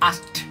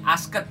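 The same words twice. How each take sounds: First: The ending joins without an extra syllable. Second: The ending is sounded as a separate syllable. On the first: The speaker calls it right. "Cukup asked" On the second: The speaker calls it wrong. "jadi asked gitu, nggak perlu guys"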